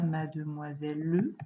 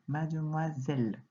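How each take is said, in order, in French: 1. Le e final se prononce, comme une syllabe en plus. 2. La dernière syllabe se dit d'un seul coup. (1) "on ne dit pas mademoiselle le" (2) "notre dernière syllabe, on la lit en entier, d'un seul coup"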